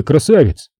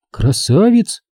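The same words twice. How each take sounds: First: Said in the usual way. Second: Put-on higher girlish voice, rising question; doubtful echo. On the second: A narrator's reading. Girl echoes him with doubt.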